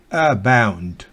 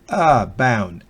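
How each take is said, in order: The two takes are said the same way.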